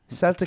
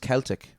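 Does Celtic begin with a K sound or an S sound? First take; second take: S sound; K sound. First: The word begins with a soft S sound. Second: The word begins with a hard K sound. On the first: It names the football club. "Celtic is just the club" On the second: It names the ancient people and culture. "But Ke- it's Celtic, right?"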